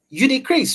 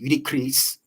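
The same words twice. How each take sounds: First: It is said in a light, teasing tone. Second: It is said in a hard, menacing tone. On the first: The speaker is only joking with the listener. "I'm joking with you" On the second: Something serious is wrong and the listener should worry. "Now you need to be afraid because something is going on"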